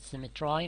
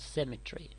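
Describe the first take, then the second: First: The final syllable ends with an 'eye' sound. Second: The final syllable ends with an 'ee' sound.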